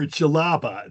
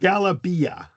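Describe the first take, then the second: First: The word begins with a J sound. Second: The word begins with a hard G sound. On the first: This is the North African form of the word. "Jalaba is D J. This is more for North Africa" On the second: This is the Egyptian form of the word. "That's the Egyptian pronunciation"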